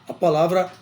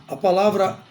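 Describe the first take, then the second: The two takes are said the same way.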